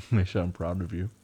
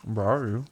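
First: Said in the usual way. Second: Talking through toothpaste; words round a toothbrush; mouth full. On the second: Real, not acted.

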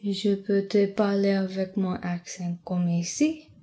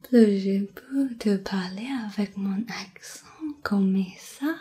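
First: Said in the usual way. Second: Flirtatious. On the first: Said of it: "which one I was trying to sound flirtatious in". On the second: Shown as a demonstration. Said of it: "trying to sound flirtatious in".

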